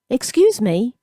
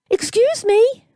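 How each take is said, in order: First: Lightly higher polite request; polite boy. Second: High, exaggerated posh camp mimicry; mocking posh camp accent. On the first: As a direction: ask nicely, a touch timid. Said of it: "Gabriel said politely". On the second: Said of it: "in an exaggeratedly posh, rather camp accent". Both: A narrator's reading.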